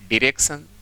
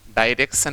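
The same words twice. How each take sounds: First: The first syllable sounds like 'dee'. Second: The first syllable sounds like 'die'. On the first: The speaker calls it right. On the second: The speaker calls it wrong.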